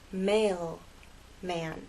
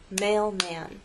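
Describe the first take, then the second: First: The word is split with a break between syllables. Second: The word is said smoothly without a break.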